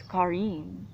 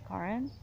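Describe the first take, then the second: First: Karin said the Scandinavian way, second syllable drawn out; Scandinavian pronunciation. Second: Karin said like a German, with a short ending; German pronunciation. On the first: Correcting how her name is said, Karin pronounced the Scandinavian way. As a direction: give Karin its Scandinavian sound, with a long ending. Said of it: "but it's Karin". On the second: Showing how she has been saying her name, Karin pronounced like a German. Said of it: "pronouncing it like a German". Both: Shown as a demonstration.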